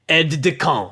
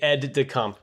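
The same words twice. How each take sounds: First: It is said with a strong French accent. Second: It is said plainly, without French flair. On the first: "put a little French on it" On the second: "It would just be aide de camp"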